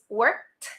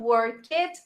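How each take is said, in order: First: The word is said as one syllable. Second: The word is said as two syllables. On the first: The speaker calls it right. "it's just one syllable" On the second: The speaker calls it wrong. "not two syllables"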